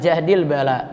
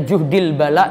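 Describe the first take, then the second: First: The first word has the vowel a after j. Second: The first word has the vowel u after j. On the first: "bisa jahdil bala" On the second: "Bisa dibaca juhdil bala"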